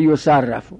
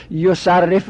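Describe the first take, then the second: First: یصرف said as "yusarrafu"; passive vowelling. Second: Said in the usual way. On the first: Shown as a demonstration. Teacher making yusarrifu passive, penultimate vowel a. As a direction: say یصرف with a after the doubled r. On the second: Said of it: "بخوایم مجهول کنیم".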